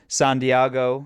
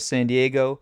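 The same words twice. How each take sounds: First: It is said in an imitated character voice. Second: It is said in an ordinary, plain voice.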